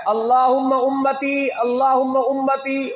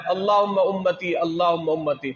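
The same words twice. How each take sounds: First: High, drawn-out plea in Arabic; slow imploring recitation; imploring prayer. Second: Said in the usual way. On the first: Retold or imitated. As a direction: call it out slowly, stretching each phrase high. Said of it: "اور کیا فرمایا". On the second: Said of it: "سرکار نے دو مرتبہ فرمایا".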